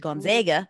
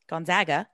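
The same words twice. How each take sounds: First: The A vowel is drawn out and longer. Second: The A vowel is said in a plain way.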